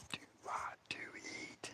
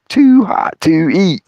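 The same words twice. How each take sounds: First: Barely audible, slow whisper; mouthed whisper. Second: Slow, spaced-out words; mock mouthing, voiced. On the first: Retold or imitated. Dave secretly tells his friend across the fire, mouthed whisper. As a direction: mouth it with almost no sound. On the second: Storyteller repeats what Dave mouthed, slowly and aloud. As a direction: voice it slowly, as if for a lip reader. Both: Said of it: "He just mouths it to me".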